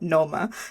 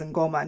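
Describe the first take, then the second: First: The name begins with a plain 'n' sound. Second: The name begins with an 'ng' sound. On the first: "not Noma" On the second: "I hope you don't mind me pronouncing it as Ngoma"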